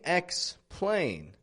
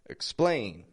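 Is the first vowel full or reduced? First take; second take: full; reduced. First: The first vowel is full and stressed. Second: The first vowel is a reduced schwa. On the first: The speaker calls it wrong. "I'm not saying explain" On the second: The speaker calls it right. "I'm using that schwa"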